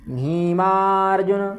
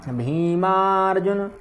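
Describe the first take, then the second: Both takes have the same delivery.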